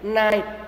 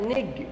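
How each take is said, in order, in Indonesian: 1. Kata itu berakhir dengan bunyi t. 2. Kata itu diucapkan dengan bunyi g. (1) "tapi kayak T" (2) "jangan bacanya G-nya kayak nig gitu ya"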